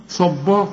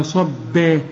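First: صبا with a thick, dark ba; heavy ba mistake. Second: Slow صبا, heavy ص then thin, light ba. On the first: (صبا بتفخيم الباء غلط) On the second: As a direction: lighten the second syllable of صبا. (صبا بباء مرققة) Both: Shown as a demonstration. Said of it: "ولا صبا".

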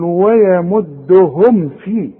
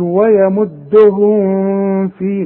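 First: ويمدهم في slow with a plain unnasalized م; no ghunna. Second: ويمدهم في with a hummed nasal م; the mistaken ghunna on ويمدهم; wrong nasal meem. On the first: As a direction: recite ويمدهم without humming the meem. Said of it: "ما عنديش غنة". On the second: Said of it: "اوعى تغنها". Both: Shown as a demonstration.

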